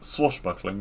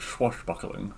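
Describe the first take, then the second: First: The word begins with a plain 'sw' sound. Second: The word begins with a 'ch' sound. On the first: The speaker calls it right. "it's swashbuckling" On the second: The speaker calls it wrong. "not swashbuckling"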